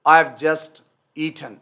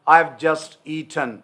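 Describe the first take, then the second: Both takes have the same delivery.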